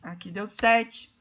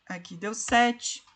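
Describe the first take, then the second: No difference in how they are said.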